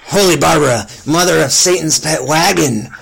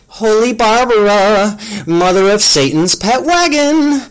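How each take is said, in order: First: It is spoken in the companion character's voice. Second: It is spoken in a voice unlike the companion's. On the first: The speaker calls it right. "Let me go back" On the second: The speaker calls it wrong. "I did that in the wrong voice"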